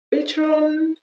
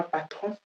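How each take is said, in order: First: "Patron" said the English way, PAY-tron with stress on the first syllable; English pronunciation. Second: "patron" said the French way, pa-TRON with a nasal final vowel; French "patron", nasal ending and stress at the end; French pronunciation. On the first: Teacher gives the English word before the French one, English pronunciation. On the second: Teacher sets the French word against the English one, French pronunciation. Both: Shown as a demonstration. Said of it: "en français, n'est pas patron".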